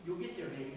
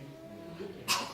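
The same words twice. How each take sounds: First: Said in the usual way. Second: Slow whispered "You'll get there" to his daughter; tender whisper. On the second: Real, not acted. Father comforting his daughter.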